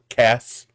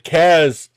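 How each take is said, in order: First: The name ends with an s sound. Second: The name ends with a z sound. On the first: The speaker calls it wrong. "if I try to say it with the S's, it just comes out as Cass" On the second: The speaker calls it right. "I have to say it with the Z's"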